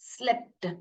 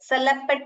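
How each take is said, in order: First: The s and l run together without a vowel. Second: An extra vowel splits the s and l. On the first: The speaker calls it right. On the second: The speaker calls it wrong.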